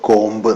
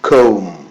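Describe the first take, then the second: First: The final b sound is pronounced. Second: The final b sound is silent. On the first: The speaker calls it wrong. "എന്നല്ല" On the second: The speaker calls it right. "ബി silent ആണ്"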